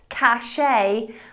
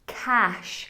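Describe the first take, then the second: First: It is two syllables, ending in 'shay'. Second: It is one syllable, like 'cash'. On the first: The speaker calls it wrong. "not cachet, which even I am guilty of sometimes saying" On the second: The speaker calls it right. "Cash, like cold, hard cash"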